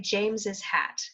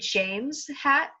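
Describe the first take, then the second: First: James gets an extra 'ez' syllable before hat. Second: James has no extra syllable before hat. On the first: "usually we'd say James's hat" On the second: "you could say James hat"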